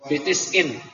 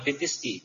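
First: The phrase ends with an n sound. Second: The phrase ends with a bare vowel. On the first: The speaker calls it right. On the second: The speaker calls it wrong. "jangan fitis i"

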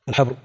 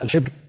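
First: The vowel after the h sound is a. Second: The vowel after the h sound is i. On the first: "وأهل الحديث يضبطونه بفتحها" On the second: "على الحبر بكسر الحاء"

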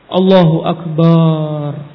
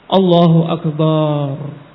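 No difference in how they are said.

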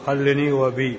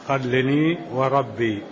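First: The r sound is dropped from the last word. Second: The r sound is clearly pronounced in the last word. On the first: The speaker calls it wrong. "عندك خلني وبي" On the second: The speaker calls it right. "زد الراء"

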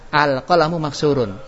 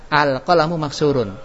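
First: The opening vowel runs straight into the phrase. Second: The opening vowel runs straight into the phrase.

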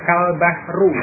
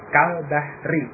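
First: The last word ends in a u vowel. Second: The last word ends in an i vowel. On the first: The speaker calls it wrong. "dengan membaca dhammah kal bahru" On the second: The speaker calls it right. "membuat menjadi kasrah kal bahri"

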